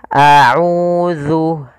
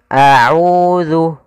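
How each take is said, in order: The two takes are said the same way.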